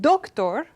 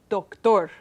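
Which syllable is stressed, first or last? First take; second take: first; last. First: The stress is on the first syllable. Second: The stress is on the last syllable.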